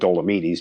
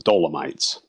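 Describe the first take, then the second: First: The name is said with an Italian pronunciation. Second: The name is said with an English pronunciation. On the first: This is how locals say it. "that's the way the Italians pronounce them" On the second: This is how the speaker's own people say it. "We would pronounce them the Dolomites"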